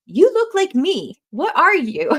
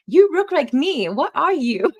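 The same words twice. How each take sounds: First: High, loud mock astonishment; imitating someone loudly taken aback; astonished stranger. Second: High, loud, slow mock Asian accent; exaggerated Asian-accented exclamation; terrible Asian accent. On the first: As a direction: exclaim it slowly like a baffled stranger. Quoting astonished strangers who approach dad. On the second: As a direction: imitate the doctor's astonishment in a hammed-up Asian accent. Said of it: "I get to do the accent. It's terrible".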